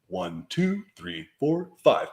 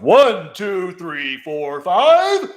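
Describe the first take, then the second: First: The count is spoken with moderate projection. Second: The count is spoken loudly, with strong projection. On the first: "And then you just sit up, and then you count again" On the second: "it announces to everybody that you are here"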